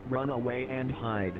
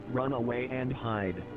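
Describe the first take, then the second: No difference in how they are said.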